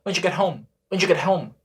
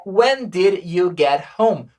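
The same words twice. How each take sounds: First: When did you get home run together as wen-djuget-home; quick casual spoken English; fast native contraction. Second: When did you get home, slow and separate; careful textbook pronunciation; every word spelled out; slow written form. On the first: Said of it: "Só que na língua falada". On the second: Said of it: "A frase escrita deveria ser". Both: Shown as a demonstration.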